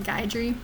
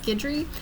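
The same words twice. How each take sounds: First: The name is said the widely used way. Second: The name is said the Louisiana way. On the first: This is how most people say it. "basically everybody's calling it Guidry" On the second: This is how it is said where the speaker is from. "In Louisiana, which is where I'm from, we pronounce that name as Guidry"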